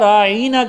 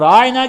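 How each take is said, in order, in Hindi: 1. शब्द को एक खिंची हुई आवाज़ के साथ बोला गया है। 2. शब्द सरलता से बोला गया है, बिना खींचे।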